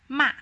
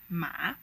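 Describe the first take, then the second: First: The pitch falls from high to low. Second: The pitch dips low, then rises again. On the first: "where the tone descends from the high point to the lowest point" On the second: "where you lower and press your voice down and then bounce it back up"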